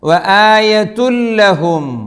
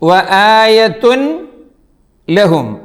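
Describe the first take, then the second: First: The n merges into a doubled l sound. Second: The n is pronounced separately before the l. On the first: The speaker calls it right. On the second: The speaker calls it wrong.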